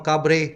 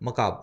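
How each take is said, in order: First: The word ends with an audible 're' sound. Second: The word ends on 'b' with no 're'. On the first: "मकाबरे लिखा जाता है" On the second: "मकाब बोला जाता है"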